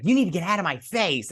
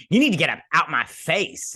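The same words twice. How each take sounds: First: Higher-pitched irritated retold demand; corrected confrontational quote. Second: Louder, punchy sassy take-off; exaggerated sass. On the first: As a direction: snap it as an acted warning. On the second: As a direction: ham up the confrontation, swooping up on the end. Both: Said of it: "she doesn't say it like that".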